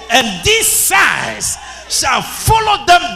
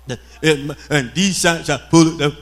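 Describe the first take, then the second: First: It is read with lively emphasis on key words. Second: It is read flatly with no emphasis. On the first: The speaker calls it right. "you must lay emphasis on certain words" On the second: The speaker calls it wrong. "It doesn't sound exciting"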